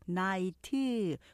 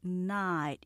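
First: The word is said with extra syllables. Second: The word is said with fewer syllables. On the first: The speaker calls it wrong. "삼음절로 하시는데 night가 아니라" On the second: The speaker calls it right. "night 이음절로 하셔야 돼요"

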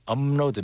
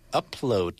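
First: The word is said with an m sound before l. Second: The word is said with a p sound before l. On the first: The speaker calls it right. "make sure you change that p-up into meum" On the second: The speaker calls it wrong. "if you say upload like you would in English"

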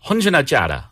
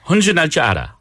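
The two takes are said the same way.

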